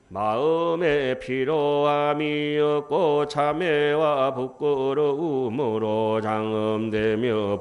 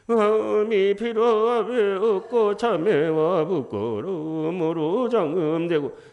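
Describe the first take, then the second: First: It is read in a crisp, clear, steady way. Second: It is read in a whiny, drawn-out, tearful way. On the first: The speaker calls it right. "이렇게 읽어야" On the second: The speaker calls it wrong. "질질 짜듯이 하면 안 돼요"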